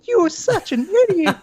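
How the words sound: It is said in a squeaky cartoon character voice. The insult loses its power and seems silly. "turning their voice into a very uh, interesting character like Mickey Mouse"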